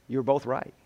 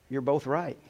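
Both takes have the same delivery.

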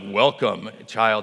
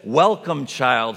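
First: It is said in a put-on Aslan lion voice. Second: It is said in his normal reading voice.

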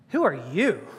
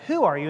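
First: The stress falls on the word you. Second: The stress falls on the word who. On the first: The person is dismissed as unimportant, with hostility. "Who are you? Of all people. And so the emphasis is that he's a chump" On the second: A genuine, polite question about someone's identity. "There's two ways of saying that. Who are you? And the emphasis on who"

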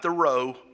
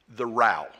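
First: The vowel in row rhymes with go. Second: The vowel in row rhymes with cow. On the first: It means moving a boat with oars. The speaker calls it wrong. "not like rowing a boat" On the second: It means a fight or quarrel. The speaker calls it right. "but like the English whenever they have a row"

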